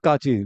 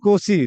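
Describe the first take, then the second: First: The name is said as 'Kachi', with 'a' and 'ch'. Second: The name is said as 'Kosi', with 'o' and 's'. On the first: The speaker calls it wrong. "Not काची" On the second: The speaker calls it right. "कोसी not काची"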